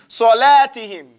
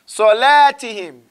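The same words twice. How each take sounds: The two takes are said the same way.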